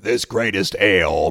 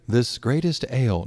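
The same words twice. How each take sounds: First: It is said in a stronger, more forceful way. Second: It is said in a smooth, pretty way.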